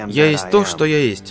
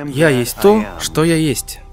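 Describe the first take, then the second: First: The phrase runs on without a pause. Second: There is a pause after «Я есть то». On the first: This is the familiar taught reading of the name. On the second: The comma reveals the hidden meaning of the name.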